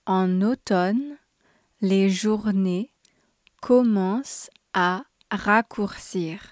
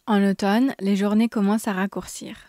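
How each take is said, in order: First: It is said slowly and clearly. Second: It is said at a normal, quicker pace. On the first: "Once slowly so you can grasp the pronunciation clearly" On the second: "twice at normal speed"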